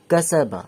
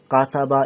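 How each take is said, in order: First: কা সা বা with thin fronted "ae"-like vowels; light, unfilled vowels. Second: কা সা বা with full, broad "aa" vowels; wrong full-mouthed vowels. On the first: Teacher models কা সা বা for learners, light unfilled vowels. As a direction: say কা সা বা lightly, without filling the vowels. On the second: Teacher shows learners what to avoid, full-mouthed vowels in কা সা বা. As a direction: say কা সা বা too full-mouthed, as a mistake. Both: Shown as a demonstration. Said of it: "এমনি পুরো হয়ে বলবেন না".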